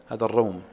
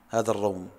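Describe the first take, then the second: No difference in how they are said.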